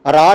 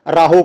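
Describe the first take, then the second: First: ਰਾਹ said "raa", no "ho"; correct silent ending. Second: ਰਾਹੋ said "raa-ho" with a sounded final "o"; kirtan singers' mispronunciation. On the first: Shown as a demonstration. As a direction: keep ਰਾਹ to one open syllable. (ਰਾਹ ਨੂੰ "ਰਾ" ਵਾਂਗ ਬੋਲਿਆ) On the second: Retold or imitated. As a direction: voice the aunkar in ਰਾਹੋ as "ho". (ਰਾਹੋ, ਅੰਤਲਾ "ਹੋ" ਉਚਾਰ ਕੇ) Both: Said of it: "ਇਹਦਾ ਉਚਾਰਨ ਨਹੀਂ ਹੁੰਦਾ ਇਸ ਤਰ੍ਹਾਂ".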